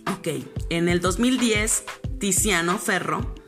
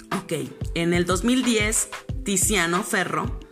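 The two takes are said the same way.

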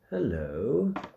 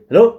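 First: It is said plainly, with little energy. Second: It is said with attention-grabbing energy.

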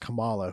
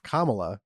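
First: The name is pronounced the way the wrestler's is. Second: The name is pronounced the way she pronounces it. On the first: The speaker calls it wrong. "I kept referring to Harris as Kamala, who was a very popular professional wrestler" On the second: The speaker calls it right. "because that's how you're supposed to pronounce her name"

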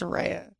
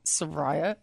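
First: The second syllable does not sound like 'rye'. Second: The second syllable sounds like 'rye'. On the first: The speaker calls it right. "It's Soraya" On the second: The speaker calls it wrong. "it's not Soraya"

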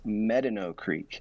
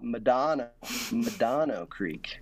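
First: The stress falls on the first syllable of Medano. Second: The stress falls on the second syllable of Medano. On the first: The speaker calls it right. "but it's Medano Creek" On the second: The speaker calls it wrong. "a lot of people call it Medano Creek"

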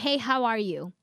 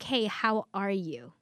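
First: It is asked casually, in passing. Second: It is asked sincerely, with real interest.

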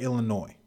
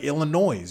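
First: The final S sound is silent. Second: The final S sound is pronounced. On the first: The speaker calls it right. "you just say Illinois" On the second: The speaker calls it wrong. "you don't say Illinois"

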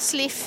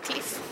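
First: The name begins with an S sound. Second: The name begins with a K sound. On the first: This is how older Swedish speakers say it. The speaker calls it wrong. "Sliff istället för Cliff" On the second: This is the usual way to say it. The speaker calls it right. "istället för Cliff"

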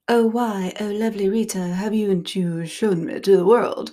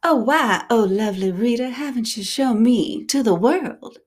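First: A Southern drawl is attempted but barely heard. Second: It is said with a clearer Southern drawl.

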